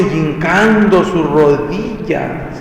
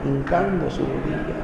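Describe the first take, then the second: First: "hincando su rodilla" drawn out slowly, "hincando" stressed; slow emphatic. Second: "hincando su rodilla" repeated much softer, dropping away. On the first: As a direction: stretch every word of the kneeling. ("hincando su rodilla" lento y enfático) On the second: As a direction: echo the phrase quietly to yourself. ("hincando su rodilla" repetido en voz baja) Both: Shown as a demonstration.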